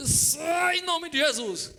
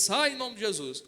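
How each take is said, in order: First: Very slow, high, loud shouted rebuke; all-out exorcism yell, much higher and louder; desperate shout. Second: Slow, measured rebuke in Jesus' name; steady deliberate exorcist command; firm command. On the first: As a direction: blast it out while being choked. Choked by tie, casting out. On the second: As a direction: order the demon out calmly but firmly. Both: Retold or imitated.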